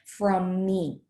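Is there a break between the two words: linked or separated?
linked. The two words run together without a break. The speaker calls it right.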